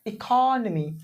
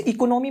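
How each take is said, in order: First: economy as a long "i-KHAA-nmi"; stress on O. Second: economy evenly as "iko-NO-mi"; wrong pronunciation. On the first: Teacher giving the correct answer, economy as "i-KAAH-nuh-mee". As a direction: hold the second syllable of economy, then fall. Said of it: "ओ पे में stress करना है". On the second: Teacher warning against a misreading, economy as "i-ko-no-mee". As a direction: round both o's in economy, no stretched "KAA". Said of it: "इसे economy मत पढ़िएगा". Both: Shown as a demonstration.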